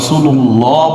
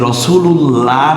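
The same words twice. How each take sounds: First: The L is thick, with rounded lips. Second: The L is thin, with unrounded lips. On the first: The speaker calls it right. "এই আল্লাহ শব্দটি রসুল্লাহ বলছি" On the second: The speaker calls it wrong. "রসুল্লাহ না বলে"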